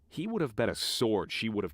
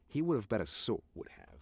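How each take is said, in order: First: Each word is clearly and separately pronounced. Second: The words are slurred and run together. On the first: The speaker calls it right. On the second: The speaker calls it wrong. "Slurred that a bit"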